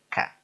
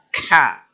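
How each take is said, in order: First: The k is plain with only faint breath. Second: The k is followed by a strong h-like rasp. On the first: The speaker calls it right. "Enteng, Pak" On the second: The speaker calls it wrong. "jadi tulisannya k h a. Ka. Salah, Pak"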